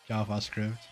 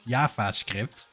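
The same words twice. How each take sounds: First: It is said with only a mild accent. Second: It is said with a strong Dutch accent.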